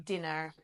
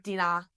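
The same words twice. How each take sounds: First: "dinner" with the final r sounded; soft, lower "dinner", ending in an r-coloured er; corrected pronunciation. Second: Australian "dinner", ending in an open ah without the r; Australian accent. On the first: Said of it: "It's not dinner". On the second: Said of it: "Sorry, my Australian accent". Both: Shown as a demonstration.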